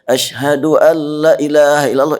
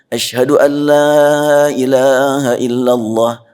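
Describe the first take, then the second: First: The vowel in 'la' is cut short. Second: The vowel in 'la' is held long. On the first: The phrase loses its meaning. The speaker calls it wrong. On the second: There is no god but God. The speaker calls it right.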